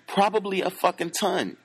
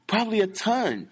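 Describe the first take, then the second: First: "Probably" hit high at the start, then falling; stress on PROBABLY. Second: "ton" hit high and falling; stress on TON. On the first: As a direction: lean on "Probably", let "fucking ton" fall away. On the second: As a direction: lift "Probably a ton" and drop hard on "ton". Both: Shown as a demonstration. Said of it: "repeated for emphasis".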